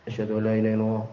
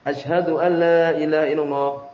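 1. Frasa itu diucapkan pelan, dengan suara rendah. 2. Frasa itu diucapkan keras, dengan suara tinggi. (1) "Kemudian setelah itu bilang dengan pelan" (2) "Kemudian baru keras"

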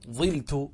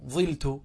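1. الحركة الأولى كسرة. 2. الحركة الأولى كسرة.

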